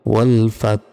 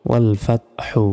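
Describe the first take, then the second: First: ওয়াল ফাত ending on a breathed-out h; stopping pronunciation. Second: ওয়াল ফাত হু with the final hu voiced; unpaused ending. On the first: Teacher showing how to pause, ওয়াল ফাত with exhaled h. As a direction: stop on ওয়াল ফাত and release a voiceless h. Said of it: "থামি তাহলে উচ্চারণটা হবে". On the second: Teacher spelling out the word, ওয়াল ফাত হু with voiced ending. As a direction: sound the short u at the end of ওয়াল ফাত হু. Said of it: "এখানে যদি থামি". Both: Shown as a demonstration.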